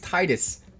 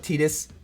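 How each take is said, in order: First: The first syllable sounds like the word 'tide'. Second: The first syllable does not sound like 'tide'. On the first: The name is linked to the tides of the ocean. "To me, it's Titus ... like the tides of an ocean" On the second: This is how other people say the name. "Some people call it Titus. Can't do it"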